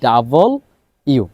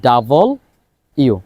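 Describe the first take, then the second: First: The letter name is said as two parts. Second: The same.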